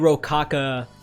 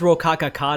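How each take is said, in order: First: The name is said with three syllables. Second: The name is said with four syllables. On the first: The speaker calls it wrong. "So I've always said it wrong" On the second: The speaker calls it right. "That's how you actually said it"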